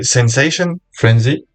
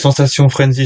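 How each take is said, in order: First: It is pronounced the English way. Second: It is pronounced the French way. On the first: The speaker calls it right. "faut le prononcer à l'anglaise" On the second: The speaker calls it wrong. "j'ai envie de dire"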